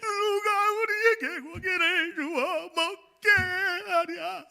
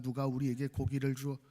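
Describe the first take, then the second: First: It is read tearfully, with crying emotion. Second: It is read in one flat, even tone.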